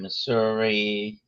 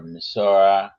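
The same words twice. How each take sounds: First: Missouri said with a final "ee"; ending in "ee". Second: Missouri said as "Missour-uh"; local pronunciation. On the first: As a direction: end Missouri on a long "ee" sound. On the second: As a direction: end Missouri on "uh" instead of "ee". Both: Shown as a demonstration. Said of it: "how you pronounce it".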